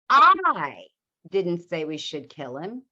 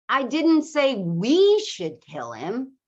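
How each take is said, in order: First: The stress falls on the word I. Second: The stress falls on the word we.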